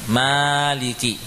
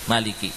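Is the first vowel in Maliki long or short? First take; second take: long; short. First: The first vowel after m is long. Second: The first vowel after m is short. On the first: "mimnya memang dibaca panjang" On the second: "dibaca dengan pendek"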